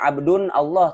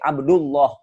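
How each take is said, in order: First: An 'n' sound follows 'abd' before 'Allah'. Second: No 'n' sound; 'abd' joins straight into 'Allah'. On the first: The speaker calls it wrong. "tidak dibaca abdun Allah" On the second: The speaker calls it right. "tapi Abdullah"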